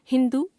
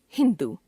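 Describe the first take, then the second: First: हिंदू ending on short उ; wrong pronunciation. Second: Said in the usual way. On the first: Shown as a demonstration. Teacher showing a common error, हिंदू with short last vowel. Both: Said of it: "अशुद्ध".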